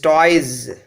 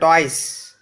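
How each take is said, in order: First: The plural ending is a voiced z sound. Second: The plural ending is a voiceless s sound. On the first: The speaker calls it right. "This is toys" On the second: The speaker calls it wrong. "not toys"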